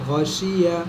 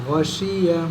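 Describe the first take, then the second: Both takes have the same delivery.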